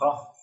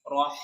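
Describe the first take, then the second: First: The final h is clipped with no flowing air. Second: The final h is breathy with air flowing out. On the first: The speaker calls it wrong. "Kalau udaranya tidak dialirkan nanti dia seperti huruf H" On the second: The speaker calls it right. "suaranya dialirkan, e, udaranya dialirkan"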